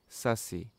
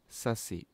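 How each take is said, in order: No difference in how they are said.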